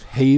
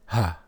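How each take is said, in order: First: The name ends in an 'ay' vowel. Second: The name ends in an 'ah' vowel. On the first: The speaker calls it wrong. "That pronunciation is incorrect" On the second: The speaker calls it right. "It is ha"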